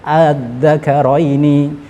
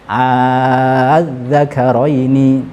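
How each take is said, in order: First: The second hamzah is softened, between hamzah and alif. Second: The second hamzah becomes a long drawn-out vowel. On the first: "boleh kita tashilkan" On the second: "boleh juga kita baca ibdal"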